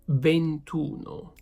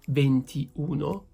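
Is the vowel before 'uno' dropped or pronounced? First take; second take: dropped; pronounced. First: The 'i' before 'uno' is dropped. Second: The 'i' before 'uno' is pronounced. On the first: The speaker calls it right. "it's gonna be ventuno" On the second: The speaker calls it wrong. "We don't say ventiuno"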